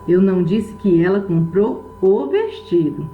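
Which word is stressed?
vestido. The stress falls on the word vestido. She bought something other than the dress. "Ela pode ter comprado qualquer outra coisa, menos o vestido"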